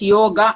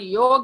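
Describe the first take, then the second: First: The word ends with a final a vowel. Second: The word ends on the consonant g. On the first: The speaker calls it right. "It is yoga" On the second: The speaker calls it wrong. "there is no word called yog in Sanskrit"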